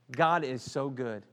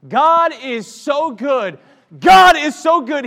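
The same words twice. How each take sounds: First: Said in the usual way. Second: High, loud, slow praising cry; loud praise shout. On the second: Real, not acted. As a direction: shout God's goodness out. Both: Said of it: "why don't you just start praising God".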